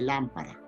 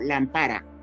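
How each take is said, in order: First: The stress is on the first syllable. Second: The stress is on the second syllable. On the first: This is the standard form a Quechua speaker does not use. "y no dice" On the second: This is how a Quechua speaker says it. "el quechua hablante dice"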